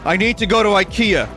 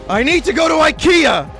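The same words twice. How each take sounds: First: It is said more loudly. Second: It is screamed at full volume. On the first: "You say louder this time" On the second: "You scream"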